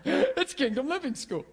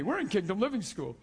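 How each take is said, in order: First: "It's Kingdom Living School" said through laughter, a bit higher; laughingly correcting the school name. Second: Said in the usual way. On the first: Real, not acted. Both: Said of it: "I'm just kidding".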